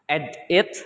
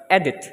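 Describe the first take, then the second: First: "edit" broken in two, ed, pause, it; wrongly split word. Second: Said in the usual way. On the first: Shown as a demonstration. Student showing classmates a wrong stress, "edit" split into ed-it. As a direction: say "edit" slowly as two separate words, ed it. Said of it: "So it's not edit". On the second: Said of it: "but edit".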